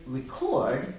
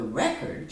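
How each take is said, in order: First: "record" as a verb, re-CORD; stress on second syllable. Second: "record" as a noun, REC-ord; stress on first syllable. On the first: Teacher testing student's ear, "record" stressed on CORD. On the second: Teacher testing student's ear, "record" stressed on REC. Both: Shown as a demonstration. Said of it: "Listen for this one".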